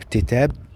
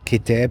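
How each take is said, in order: First: The word begins with a T sound. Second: The word begins with a K sound. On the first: The speaker calls it wrong. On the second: The speaker calls it right.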